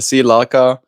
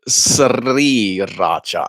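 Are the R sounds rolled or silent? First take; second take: silent; rolled. First: The R sounds are left silent. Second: The R sounds are rolled. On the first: "If you're pronouncing it in Thai, okay, that makes sense. The R is silent" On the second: "we uh, roll our R's. Sh- So it would be Sriracha"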